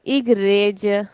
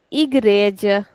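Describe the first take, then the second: No difference in how they are said.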